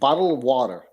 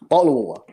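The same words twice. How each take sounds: First: It is said in an American accent. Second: It is said in a British accent.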